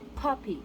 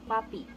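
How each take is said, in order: First: The p is released with a strong puff of air. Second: The p is released without a puff of air. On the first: The speaker calls it right. "Now let's try it in a plosive manner" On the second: The speaker calls it wrong. "Try them in Filipino version"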